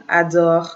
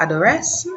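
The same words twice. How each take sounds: First: "adore" ending on the R sound, no S; silent ending. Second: "adores" with the final "es" pronounced as "ess"; wrongly sounded ending. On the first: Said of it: "This is adore". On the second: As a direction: say "adores" wrongly, adding a stressed "-ess" at the end. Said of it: "It's not adores". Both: Shown as a demonstration.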